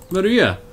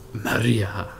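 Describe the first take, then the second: First: Comic impression. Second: Low, drawn-out comic Maria; mock dramatic movie-trailer voice; Pablo Francisco impression. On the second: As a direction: say her name like a comedian's bit. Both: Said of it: "I was watching Pablo Francisco last night".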